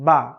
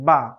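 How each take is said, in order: The two takes are said the same way.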